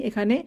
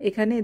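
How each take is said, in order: The two takes are said the same way.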